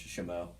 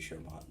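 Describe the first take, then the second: First: The name ends in a vowel, no T. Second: The name ends with a sounded final T. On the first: This is how the locals say it. The speaker calls it right. "apparently it's Shomo" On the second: This is the speaker's own habit. The speaker calls it wrong. "I say Shomont"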